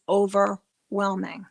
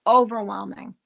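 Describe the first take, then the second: First: Said in the usual way. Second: "Overwhelming" louder, leaned on hard; "Overwhelming" punched out louder for emphasis; emphatic repeat. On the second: Real, not acted. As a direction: repeat "Overwhelming" with full weight.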